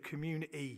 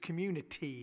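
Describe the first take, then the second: First: The T is replaced by a glottal stop. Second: The T is pronounced clearly. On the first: "it's glottal stops" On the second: "It's community is the word, but obviously that's not how I say it"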